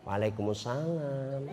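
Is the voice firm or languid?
languid. It is said in a soft, drawn-out voice.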